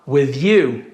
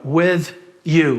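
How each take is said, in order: First: The two words are linked together. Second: The two words are said separately. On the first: The speaker calls it right. "Vou juntar aqui" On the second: The speaker calls it wrong. "Não vou falar separado aqui"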